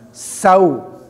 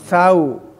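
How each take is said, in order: First: The opening s has a clear, strong hiss. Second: The opening s has a weak, unclear hiss. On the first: The speaker calls it right. "Ya desisnya harus betul-betul nampak" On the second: The speaker calls it wrong. "bukan sau"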